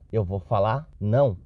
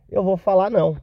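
First: Said in the usual way. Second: Louder, higher, firm on falar; deciding out loud, pleased with the plan; firm decision. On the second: Retold or imitated. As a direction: settle it: Eu vou falar não. Decision restated firmly.

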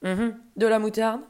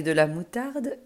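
First: Louder question, rising at the end; interested interruption. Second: Said in the usual way. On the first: Acted. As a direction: cut in on MOUTARDE with a rising, intrigued lift. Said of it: "interrompit l'ogre, qui adore".

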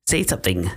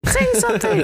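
First: Said in the usual way. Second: Very high-pitched imitated demand; mock outburst. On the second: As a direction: mimic someone losing it, pitch shooting way up. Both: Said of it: "Luke just fucking goes off".

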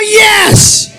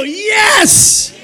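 First: High, very loud shouted "yes"; full shout. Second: High cheered call for the crowd to echo; cheering. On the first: Preacher telling the congregation to shout, full-force yell. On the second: Preacher prompting everybody to go yes, high cheer. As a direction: lead the congregation in a high cry. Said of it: "Everybody go". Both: Shown as a demonstration.

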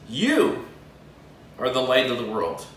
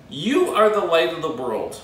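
First: "You" set apart, then a long pause and a low "are the light of the world"; "You" singled out, rest sinks low; stress on you. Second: Said in the usual way. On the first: Shown as a demonstration. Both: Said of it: "which means emphatically you".

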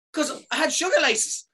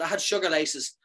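First: Much higher, pushing the word "sugar"; exasperated insisting. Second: Said in the usual way. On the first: Retold or imitated. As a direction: stress "sugar" high and fed-up. Insisting to nurses.

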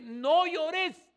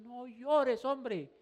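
First: Much higher and louder angel voice; quoted angel, no llores. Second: High, loud quoted angel. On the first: Preacher voicing the angel to weeping John, high and loud. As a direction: ring it out as the angel's command. Angel's words, climax of retelling. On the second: Preacher voicing the angel to John, raised voice. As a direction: cry it out as the angel. Angel's words retold again. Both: Retold or imitated.

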